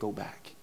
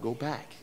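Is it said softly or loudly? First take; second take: softly; loudly. First: It is said softly. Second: It is said loudly.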